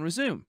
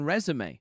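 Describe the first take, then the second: First: The final E is not sounded. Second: The final E is sounded aloud. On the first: "but silent on resume" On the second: "the E is pronounced on resume"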